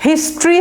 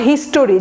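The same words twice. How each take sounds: First: হিস্ট্রি in two syllables, "his-tree"; no "o" in হিস্ট্রি, just "his-tree"; correct pronunciation. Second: হিস্টোরি as "his-to-ree"; wrong pronunciation. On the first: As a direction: say হিস্ট্রি ending like "industry". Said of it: "উচ্চারণটা এটা". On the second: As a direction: put a full "o" into হিস্টোরি before the r. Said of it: "not হিস্টোরি". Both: Shown as a demonstration.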